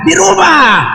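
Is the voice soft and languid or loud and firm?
loud firm. It is said loudly and firmly.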